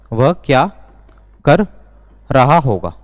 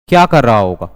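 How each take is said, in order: First: Slow dictation with long pauses; spaced out, pausing after each chunk; word by word. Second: Said in the usual way. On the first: Shown as a demonstration. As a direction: break the question into separate words for learners. Breaks the example up for learners.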